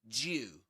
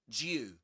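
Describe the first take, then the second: First: The two words blend into one short syllable. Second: The two words blend into one short syllable.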